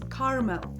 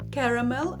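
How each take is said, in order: First: The word has two syllables. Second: The word has three syllables. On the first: "American English often pronounced with two syllables" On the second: "British English usually has three syllables with the stress on the first"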